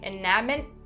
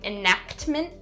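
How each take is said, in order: First: The k and t sounds are fully dropped. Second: The k and t sounds are sharply over-enunciated. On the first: "don't completely drop them. Don't say enactment, not correct" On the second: "make sure that you're not over enunciating those sounds"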